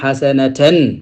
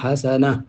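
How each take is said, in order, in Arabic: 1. تنتهي الكلمة بـ 'natan' الكاملة. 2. تنتهي الكلمة بـ 'na' القصيرة. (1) "bu fekkoon na taxawoo fa dag naan xasanatan" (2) "boo fa taxawee dag naan xasana da ngay sukkoon"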